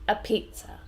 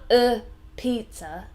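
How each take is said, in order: First: The article is a weak, relaxed 'uh'. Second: The article is said strongly and fully. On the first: The speaker calls it right. "relaxing on the uh" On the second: The speaker calls it wrong. "So not a pizza"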